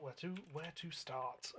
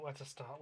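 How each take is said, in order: First: Slow, drawn-out pondering; slow musing. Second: Said in the usual way. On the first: Real, not acted. Musing over the next job.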